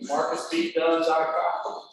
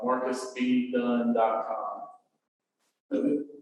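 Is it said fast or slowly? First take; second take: fast; slowly. First: It is said fast. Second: It is said slowly.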